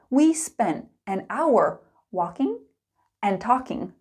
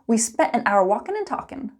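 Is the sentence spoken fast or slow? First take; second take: slow; fast. First: It is spoken slowly and clearly. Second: It is spoken quickly with linked sounds. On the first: "Slow and clear" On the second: "Let's speed it up"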